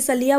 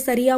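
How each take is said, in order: First: The middle consonant is an l sound. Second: The middle consonant is an r sound. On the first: This is the Gujarati village form. "हमारे गुजराती में ना सड़िया बोलते थे, सलिया बोलते थे" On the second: This is the standard Hindi form. "अपनी हिंदी में सरिया बोलते हैं"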